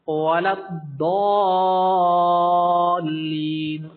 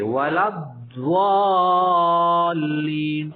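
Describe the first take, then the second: First: الضالین recited very slowly with a clear, moderately heavy ض; correct recitation demo. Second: الضالین drawn out very slowly with a heavy, rounded ض; wrong recitation demo. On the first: The teacher models the correct recitation for students. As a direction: recite الضالین slowly, not too thick. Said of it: "اتنا بھی موٹا نہیں پڑھنا". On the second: The teacher mimics an over-thick الضالین for students. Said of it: "وہ اس طرح کرتے ہیں". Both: Shown as a demonstration.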